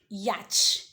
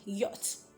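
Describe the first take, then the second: First: A 'ch' sound is pronounced in the word. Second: No 'ch' sound is pronounced in the word. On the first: The speaker calls it wrong. "some people pronounce it as yacht" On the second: The speaker calls it right. "The C H there is not pronounced. So you rather say yacht"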